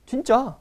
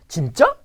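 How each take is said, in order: First: 진짜 falling at the end, as confirmation; answer tune. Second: 진짜 rising sharply at the end; question tune. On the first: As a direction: answer with a high start dropping on 짜. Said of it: "then you can answer". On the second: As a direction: ask it, lifting 짜 upward. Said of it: "whenever it's a question". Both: Shown as a demonstration.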